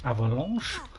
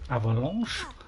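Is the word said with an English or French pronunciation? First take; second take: French; French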